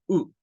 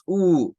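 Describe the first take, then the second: First: U cut short and quick; a brief, lax U as in book. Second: U stretched out long and louder, "uuu"; wrong long U. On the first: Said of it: "es U". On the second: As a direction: hold the U too long. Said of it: "No es U". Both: Shown as a demonstration.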